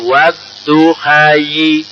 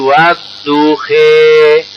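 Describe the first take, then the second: First: The word ends with an added 'yi' sound. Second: The word ends with a leaning 'e' vowel. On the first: The final letter is read as a ya. "Seandainya itu berfungsi ya, bacaannya wadduhayi" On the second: This is the imala reading style. "Karena ada bacaan imala menjadi wadduhe"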